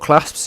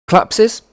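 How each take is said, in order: First: The name is said as one short syllable. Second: The name is stretched out with extra syllables. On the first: The speaker calls it right. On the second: The speaker calls it wrong.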